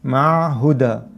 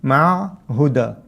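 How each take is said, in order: The two takes are said the same way.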